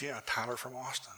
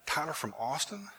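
First: Soft "Tyler from Austin" with falling tune; confirming answer. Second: Higher, rising "Tyler from Austin?"; surprised question. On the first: Caller confirms who he is. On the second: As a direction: ask "Tyler from Austin?" in disbelief, pitch climbing on AUSTIN. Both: Retold or imitated.

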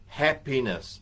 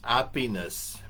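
First: Said in the usual way. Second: Happiness said without the h, like ahpiness; Filipino accent. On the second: Retold or imitated. Showing her accent to the audience, happiness without the h. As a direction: drop the h from happiness, lightly Filipino. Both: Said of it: "in her beautiful Filipino accent".

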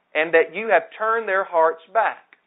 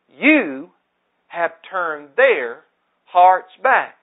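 First: Said in the usual way. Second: Each word of "You have turned their hearts back" drawn out, "hearts back" loud; slow emphatic stress. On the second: Shown as a demonstration. Preacher repeating the prayer line to the congregation, slow and loud. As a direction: slowly lean on "turned their" and land hard on "hearts back". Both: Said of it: "That statement is so important".

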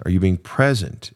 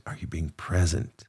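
First: Said in the usual way. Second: "present" dropped much softer, almost hushed; soft repeat. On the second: Shown as a demonstration. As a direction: let the third "Are you being present?" fall quiet. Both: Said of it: "repeated question".

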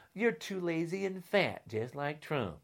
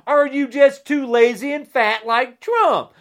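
First: Much softer, muttered taunt; quiet repeat. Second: Shouted, angry taunt; loud jab. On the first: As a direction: drop the voice and sneer it again. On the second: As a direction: throw the insult loudly. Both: Real, not acted. Angry rant repeated then muttered.

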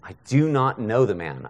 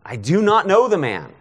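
First: Said in the usual way. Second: Raised, high-pitched oath of denial; insistent, higher-pitched swearing; emphatic sworn denial. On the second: Acted. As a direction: swear it forcefully, pitch leaping up. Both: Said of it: "begins to invoke a curse on himself and to swear".

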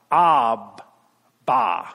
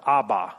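First: Abba with both vowels open, ah-bah, drawn out; cry of Abba. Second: Said in the usual way. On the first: Shown as a demonstration. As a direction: say Abba slowly, each syllable open. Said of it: "you can now cry out". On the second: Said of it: "That's a different word".

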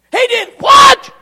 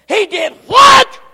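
First: Very high shouted outrage, rising; even louder disbelief. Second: Loud high disbelieving shout; can't believe what he hears; outraged disbelief. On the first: Joab repeating the news, shrieking outrage. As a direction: explode in disbelief. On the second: Joab hearing of the peace deal, loud disbelief. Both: Acted.

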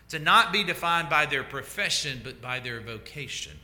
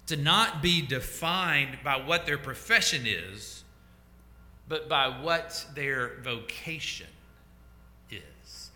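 First: Said in the usual way. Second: "profession" and "vocation" set apart slowly with pauses; slow, deliberate. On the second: Real, not acted. Preacher lays out key line for congregation, slow and deliberate. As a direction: spell out the contrast slowly, pausing before "is".

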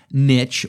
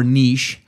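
First: Niche rhymed with rich; niche with a short i and a tch ending; niche as "nitch". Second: Niche rhymed with leash; niche as "neesh". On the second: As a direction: say niche as "neesh", long ee, ending in sh. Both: Shown as a demonstration. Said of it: "depending on how you wanna phrase that".

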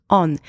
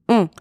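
First: "on" with an open vowel and sounded N; "on" un-French, ending on a clear N; wrong English-style vowel. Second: "On" as one nasal vowel, no N heard; "On" with the N silent; French nasal vowel. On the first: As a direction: say "on" like the English word, as a mistake. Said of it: "not on". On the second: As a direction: say "On" the French way, rounded and through the nose. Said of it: "It is a nasal vowel sound". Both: Shown as a demonstration.

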